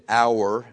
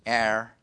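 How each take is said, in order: First: The word sounds like 'hour', with an 'ow' vowel. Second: The word rhymes with 'air', with no 'ow' vowel. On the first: "We say it like minute, hour" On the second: "Unless you're from like kind of more in the Carolinas"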